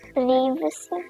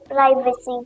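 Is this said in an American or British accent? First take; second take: British; American. First: It is said in a British English accent. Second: It is said in an American English accent. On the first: "British English में" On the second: "American English में"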